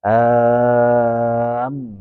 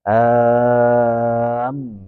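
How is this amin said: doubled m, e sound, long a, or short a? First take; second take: doubled m; doubled m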